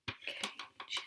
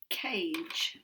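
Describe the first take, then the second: First: Cage breathed out without voice; whispered cage. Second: Said in the usual way. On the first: Shown as a demonstration. Teacher sounding out a word to kids, whispered. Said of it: "K-age". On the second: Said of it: "I might want to write the word".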